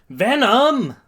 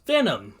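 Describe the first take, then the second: First: High, loud exasperated shout; angry yell. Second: Raised call to a partner; mild yell. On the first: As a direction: yell the name in anger. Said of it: "Midoriya angrily yells". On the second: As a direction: call out, a little higher. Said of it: "so Midoriya yells". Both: Acted.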